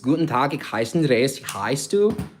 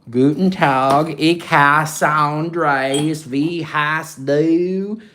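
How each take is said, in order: First: It is spoken with a native German accent. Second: It is spoken with a Southern American accent. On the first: The speaker calls it right. "it just rolls off the tongue better" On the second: The speaker calls it wrong. "If I use a southern accent, if I'm speaking German, that's what I'm doing here"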